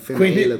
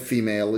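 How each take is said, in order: First: The word is pronounced with Italian sounds. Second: The word is pronounced with English sounds. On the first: The speaker calls it wrong. "italianizzandola in female" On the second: The speaker calls it right. "dice female"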